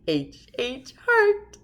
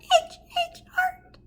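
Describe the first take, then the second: First: It is said in a normal-pitched voice. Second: It is said in a very high-pitched voice. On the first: "in a normal voice" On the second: "Even higher"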